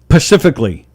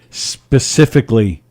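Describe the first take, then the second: First: The word begins with a 'p' sound. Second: The word begins with an 's' sound. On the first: The speaker calls it wrong. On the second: The speaker calls it right.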